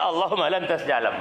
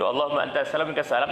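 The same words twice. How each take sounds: First: "Allahumma lantas jalan" at normal pace, "lantas jalan" said clearly in place of "antas salam"; misheard prayer joke. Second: "Allahumma antas salam wa minkas salam" gabbled fast, words run together; rushed prayer. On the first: Joking that the imam says "then go" and leaves: clear punchline. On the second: Mocking the imam's hasty prayer: fast gabbled recitation. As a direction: rattle off "antas salam" in one quick breath. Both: Retold or imitated. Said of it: "Imamnya, dia".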